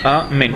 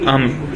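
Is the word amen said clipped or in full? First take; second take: full; clipped. First: The whole word is said with every sound. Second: The end of the word is cut off. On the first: The speaker calls it right. "говорить целое слово, так чтобы было слышно как цельное слово" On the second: The speaker calls it wrong. "или там ам"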